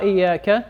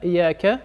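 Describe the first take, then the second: Both takes have the same delivery.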